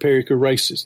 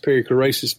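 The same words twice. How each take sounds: First: It is said with a Southern US pronunciation. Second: It is said with the standard pronunciation. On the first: The speaker calls it wrong. "it's going to be pronounced that here, especially in the South" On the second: The speaker calls it right. "The proper pronunciation is perichoresis"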